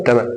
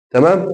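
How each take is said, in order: First: تمام with a falling end; short falling close on تمام; confirming answer. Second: تمام rising at the end; rising question on تمام; checking question. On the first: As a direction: answer تمام as a settled statement. Answers his own check. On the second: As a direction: ask تمام with a higher, lifting pitch. Asks, then answers himself. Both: Shown as a demonstration.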